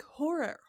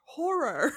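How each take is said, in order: First: Said in the usual way. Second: HORROR re-said louder, as two syllables; careful pronunciation. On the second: Real, not acted. Host correcting her word so it won't sound like whore, careful pronunciation. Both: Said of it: "I'm trying not to make it sound like whore".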